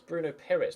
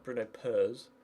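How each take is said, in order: First: The surname is said with two syllables. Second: The surname is squashed into one syllable. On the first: The speaker calls it right. "it's Bruno Perez" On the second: The speaker calls it wrong. "not Bruno Pers"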